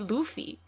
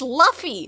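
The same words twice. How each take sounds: First: The first vowel is a long 'oo' sound. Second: The first vowel is a short 'uh' sound. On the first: "If it was O O, it would be" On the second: "It says it says"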